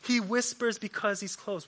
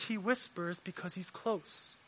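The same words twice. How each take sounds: First: A little softer than his usual preaching; softly repeated. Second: Hushed near-whisper. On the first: Preacher to the congregation, gently repeating. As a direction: repeat it gently, not as hushed. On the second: Preacher to the congregation, drawing them in, hushed. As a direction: say it very softly, almost under the breath. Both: Shown as a demonstration. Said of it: "Let me say this".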